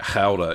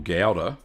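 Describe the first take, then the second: First: It begins with a throaty, guttural G sound. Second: It begins with a plain hard G sound. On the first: The speaker calls it right. "There's a bit of a guttural type thing with the G" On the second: The speaker calls it wrong. "what I call gouda"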